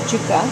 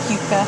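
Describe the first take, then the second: First: "juca" said with an opening J sound; "juca" with a J in place of the Y; native pronunciation. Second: "yuca" said with an opening Y sound; American-style "yuca", starting like "you"; American pronunciation. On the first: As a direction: say "juca" as JOO-kuh, not YOO-kuh. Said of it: "it's pronounced". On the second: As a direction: say "yuca" the American way, YOO-kuh. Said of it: "I say Americans, pronounce it". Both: Shown as a demonstration.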